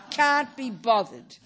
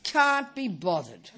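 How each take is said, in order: First: Slow and louder can't-be-bothered; exaggerated lazy groan; mock lazy whine. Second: Slow, half-laughing can't-be-bothered; lazy laughing drawl; mock lazy shrug. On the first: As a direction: stretch it out, milking the laziness. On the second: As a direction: drag it out like you can't be bothered. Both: Shown as a demonstration. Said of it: "the obvious one is".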